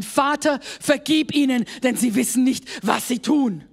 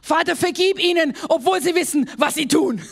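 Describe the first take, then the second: First: Steady prayer, words spoken out; plain spoken prayer; spoken aloud as a prayer. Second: Higher, brighter repeat ending in a laugh; playful repeat. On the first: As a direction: say it aloud to God. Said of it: "musst du es laut aussprechen". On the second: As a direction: say it again with a wry twist. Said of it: "und wieder laut aussprechen". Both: Shown as a demonstration.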